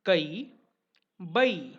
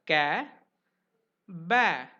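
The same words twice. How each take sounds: First: "kai", "bai" gliding from uh to a long ee; Marathi-style "kai", "bai", two-part vowel, loud and deliberate; Marathi pronunciation. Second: "ka", "ba" with one open 'a' as in cat; Hindi-style "ka", "ba", no glide to ee; Hindi pronunciation. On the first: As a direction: say "kai" as kuh-ee and "bai" as buh-ee. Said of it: "whereas in Marathi, it is pronounced as". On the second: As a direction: say "ka" as kae and "ba" as bae, a single vowel. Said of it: "in Hindi, this will be pronounced as". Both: Shown as a demonstration.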